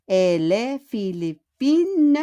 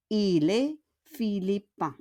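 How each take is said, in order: First: "philippine" with the final n sounded, slow; feminine form, pronounced n. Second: "philippin" ends in a nasal vowel, no n; masculine form, nasal ending. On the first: Teacher contrasts feminine with masculine form. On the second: Teacher contrasts masculine with feminine form. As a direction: drop the n in "philippin". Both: Shown as a demonstration.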